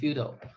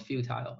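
First: It is said with an American accent. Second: It is said with a British accent. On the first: "美语就读成futile" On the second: "英式就读成futile"

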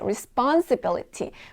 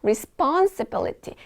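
First: The word flows smoothly in one go. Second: The word flows smoothly in one go.

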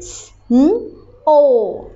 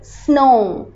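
First: The word is split into separate sounds. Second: The word is said whole in one go. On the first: "You will make sound and then read out. Now please make the sound" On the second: "and then read out"

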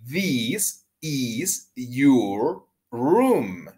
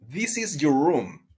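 First: The sentence is said at a slower pace. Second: The sentence is said at a faster pace. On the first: "la vamos a pronunciar juntos así" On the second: "Más rápido"

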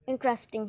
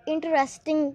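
First: The word is said with three syllables. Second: The word is said with four syllables. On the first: The speaker calls it right. "इसकी right pronunciation इंटरेस्टिंग है।" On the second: The speaker calls it wrong. "इस अल्फाज को लोग इंटरेस्टिंग कहते हैं, लेकिन ये बिल्कुल गलत है।"

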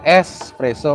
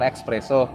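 First: It has a plain s sound before the p. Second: It has a ks sound before the p. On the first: The speaker calls it right. "yang benar tuh espresso" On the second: The speaker calls it wrong.

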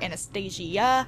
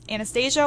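First: The name is said with the extra 'i' vowel. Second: The name is said without the extra 'i' vowel.

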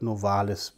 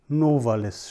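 First: The stress is on the second syllable. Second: The stress is on the first syllable. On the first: This is the customary stress, following Latin. "statt Novalis" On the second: This is how the poet himself stressed the name. "auf der ersten Silbe, nämlich Novalis"

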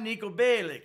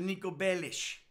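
First: The surname ends with a hard k sound. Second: The surname ends with a soft sh sound. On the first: The speaker calls it wrong. "No, it's not Nico Bellic" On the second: The speaker calls it right. "It's actually Nico Bellish"

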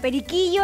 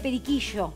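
First: The double l sounds like a soft y. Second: The double l sounds like sh or zh. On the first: This is how it is said in Venezuela. "periquillo en vez de periquillo" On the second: This is how it is said locally. "en Venezuela no usan la Y nuestra"

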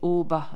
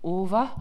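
First: The middle consonant sounds like a b. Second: The middle consonant sounds like a v. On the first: This is the form used in the Sundgau region. "c'est Oba dans le Sungo" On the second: This is the form used in the rest of Alsace. "Ova dans le reste de l'Alsace"

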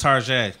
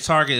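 First: The word ends with a soft French-like zhay sound. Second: The word ends with a plain hard t sound. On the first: It makes the store sound posh and upscale. "with pinky out" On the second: It is the ordinary way to say the name. "when you say Target is Tarjay"

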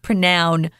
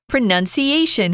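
First: The second syllable sounds like 'noun'. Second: The second syllable sounds like 'nun'. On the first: The speaker calls it wrong. "not pronoun" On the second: The speaker calls it right.

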